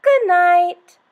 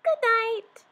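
First: Higher and much louder call; loud lion good night. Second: Very high tiny squeaky voice; mouse squeak. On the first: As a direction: boom it out like a lion. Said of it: "The lion said". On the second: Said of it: "the mouse squeaked". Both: Acted.

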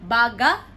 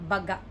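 First: "Baga" with loud, long BA, rising end; BA-ga, contrast take of "Baga"; stress on first syllable. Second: "baga" as short ba-GA, lower; stress on last syllable. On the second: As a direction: close low on GA in "baga". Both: Shown as a demonstration.

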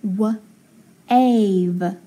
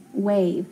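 First: "w-ave" as wuh, pause, then ave with long A; segmented "w-ave", silent E; sounding out. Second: Said in the usual way. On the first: Shown as a demonstration. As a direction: split "w-ave" slowly after the first sound. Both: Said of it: "So I would say".

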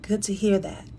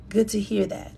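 First: Soft breathy whisper of the phrase. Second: Said in the usual way. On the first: Real, not acted. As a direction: whisper it close to the mic.

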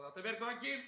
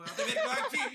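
First: Said in the usual way. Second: Put-on much higher and louder Urfa accent, laughing through it; laughing mock of a sergeant's Urfa accent. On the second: Sergeant barges in asking for Ataberk, laughing Urfa accent. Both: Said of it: "Böyle bir şiveli de bir Urfalı mı?".

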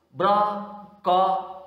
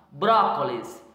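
First: "brócolis" split into bró, co, lis with pauses; syllable by syllable. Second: Said in the usual way. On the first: Shown as a demonstration. Teacher showing how to divide the word, "brócolis" syllable by syllable. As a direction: break "brócolis" slowly into three separate syllables. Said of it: "separação em sílabas". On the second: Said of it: "separação em sílabas e classificação".

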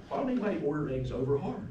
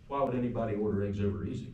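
First: Higher, quick, puzzled question; retold baffled question, rattled off; incredulous. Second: Quick retort at ordinary pitch; retold dry comeback, rattled off evenly; deadpan comeback. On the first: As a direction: ask it in mock disbelief, pitch lifted. Mock disbelief at friend's breakfast order. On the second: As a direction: throw the question straight back, unruffled. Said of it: "he just looked at me and said".

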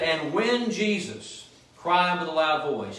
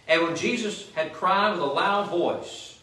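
First: Slow reread leaning on "when"; slow down and hit "when" to show the timing; stress on when. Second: Said in the usual way. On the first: Shown as a demonstration. Pastor rereading the verse to show "when" came first, stressed. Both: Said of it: "It doesn't say, as you read this".

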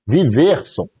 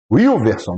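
First: "Viverson" starting with a plain V sound. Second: "Wilverson" starting with an English W glide. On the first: Guessing how the viewer's name is said, as Viverson. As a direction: say "Viverson", V not W. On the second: Guessing how the viewer's name is said, as Wilverson. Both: Shown as a demonstration. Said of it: "se é Viverson ou Wilverson".

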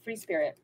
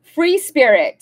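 First: Murmured softly, lower; quiet savoring echo; soft repeat. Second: Announced loudly, a touch higher; card title read out. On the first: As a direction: say it again to yourself, dreamily. Repeating the card name softly. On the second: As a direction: read the card name out proudly. Reading the card title aloud. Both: Real, not acted.

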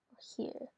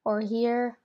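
First: Very soft whisper; whisper to self. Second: Said in the usual way. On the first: Real, not acted. Player weighing where to place an altar, whispered. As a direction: whisper it while thinking it over. Repeats option under their breath.

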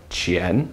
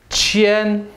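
First: QIAN starting low and rising; rising pitch on QIAN; second tone. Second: QIAN held high and level. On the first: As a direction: lift QIAN like a question. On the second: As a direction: say QIAN on a steady high note. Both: Shown as a demonstration. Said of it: "Second tone though".

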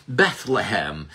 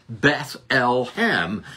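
First: Said in the usual way. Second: Beth-el-hem split into three slow syllables, el stressed. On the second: Shown as a demonstration. Preacher showing God's name inside Beth-el-hem, slow syllable split. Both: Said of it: "El is the name for God".

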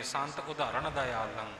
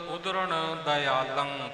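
First: ਉਦਾਹਰਣ with a long inserted vowel, mocked softly; amused demo of the common mistake ਉਦਾਹਰਣ; chuckling over the wrong ਉਦਾਹਰਣ; wrong pronunciation. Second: ਉਦਰਣ said slowly as ud-ran, no extra vowel; slow, clear ਉਦਰਣ ਦਇਆਲੰ; careful slow pronunciation. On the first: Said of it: "ਕਈ ਸਾਡੇ ਵੀਰ ਇੱਥੇ ਉਦਾਹਰਣ ਬੋਲ ਜਾਂਦੇ ਨੇ". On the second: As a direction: spell out ਉਦਰਣ syllable by syllable. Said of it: "ਪਾਠ ਭਾਈ ਸਾਹਿਬ ਜੀ ਪਾਸੋਂ". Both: Shown as a demonstration.

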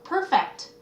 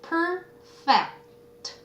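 First: Said in the usual way. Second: "perfect" stretched out, split into per and fect; syllable by syllable. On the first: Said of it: "붙였어야 돼요". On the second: Shown as a demonstration. Teacher sounding out a word for students, "perfect" syllable by syllable. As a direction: draw out each syllable of "perfect". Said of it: "띄었으면 안 돼요".

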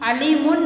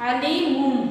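First: "अलीमुन" ending on a plain n; unmerged n ending. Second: "अलीमुम" ending on a hummed m. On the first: Teacher showing what not to read, "अलीमुन" with final n. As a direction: say "अलीमुन" with the final n left unchanged. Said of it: "अलीमुन नहीं पढ़ेंगे". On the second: Teacher showing the reading to use, "अलीमुम" closing on m. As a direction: recite "अलीमुम" with the n turned into m. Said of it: "इधर पढ़ेंगे हम". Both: Shown as a demonstration.

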